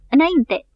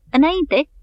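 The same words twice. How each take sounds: First: Same high, loud falling command repeated; bellowing forward. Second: Higher, louder command, falling at the end; bellowing forward. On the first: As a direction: keep roaring the order at full voice. (urlet repetat din toți rărunchii) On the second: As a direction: roar the order at the top of his lungs. (urlet din toți rărunchii) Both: A narrator's reading. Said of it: "urlând cât îl ținea gura".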